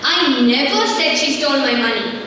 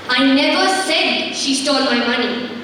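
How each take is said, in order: First: The stress falls on the word "never". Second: The stress falls on the word "said". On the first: The claim was never made at all. "confirming the fact that she did not steal it" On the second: It was implied without words, but she did steal it. "I didn't speak out, but yes, she stole it"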